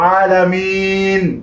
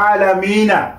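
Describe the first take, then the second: First: The word ends on the final n consonant. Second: The word ends with a short a vowel.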